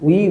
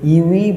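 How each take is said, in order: First: The word starts with a w sound. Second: The word starts with a yoo sound. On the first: The speaker calls it right. "উই বলবো" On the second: The speaker calls it wrong. "এখানে ইউই বলবো না"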